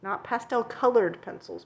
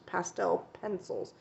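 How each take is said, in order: First: "colored" stressed clearly, set apart from "pastel". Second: "pastel" stressed, falling and softer on "pencils"; quiet corrective stress on "pastel" in "pastel pencils". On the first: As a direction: lean on "colored" to correct the idea. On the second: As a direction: hit "pastel" to set the record straight. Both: Shown as a demonstration.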